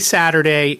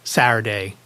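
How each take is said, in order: First: The middle T sound is clearly pronounced. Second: The middle T sound is left out. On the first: "I say Saturday" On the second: "Like it took the T out"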